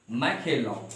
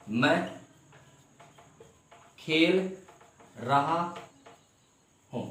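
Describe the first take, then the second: First: Said in the usual way. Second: "मैं खेल रहा हूँ" slowly, a long pause after each word. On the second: Shown as a demonstration. Teacher spacing words for students to follow. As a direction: spell the sentence out word by word. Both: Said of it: "teacher models sentence".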